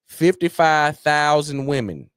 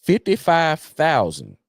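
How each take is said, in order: First: Each word slowed and stressed; slow emphasis. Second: Number dragged out slowly, each word stressed; slow emphasis. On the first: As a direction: spell out the number slowly for weight. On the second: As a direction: hammer the figure home slowly. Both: Shown as a demonstration. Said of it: "I'm gonna say it again".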